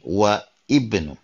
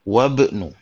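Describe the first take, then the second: First: The first vowel of ibnu is pronounced separately. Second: The words join with the first vowel dropped. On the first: The speaker calls it wrong. "bukan wa ibnu" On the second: The speaker calls it right. "perhatikan penyebutan wabnu"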